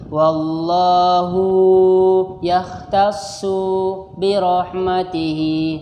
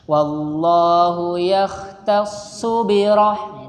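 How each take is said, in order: First: A short final vowel is stretched long when joining. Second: The short final vowel stays short when joining. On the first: The speaker calls it wrong. "Terkadang suka gitu" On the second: The speaker calls it right. "kalau akhir hurufnya itu pendek, pendekin saja langsung"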